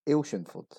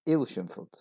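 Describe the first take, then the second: No difference in how they are said.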